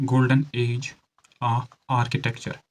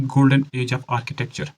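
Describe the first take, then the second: First: Slow, broken into chunks with pauses; slow dictation. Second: Said in the usual way. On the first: Shown as a demonstration. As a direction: dictate it piece by piece for note-taking. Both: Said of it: "धीरे से बोल रहा हूँ".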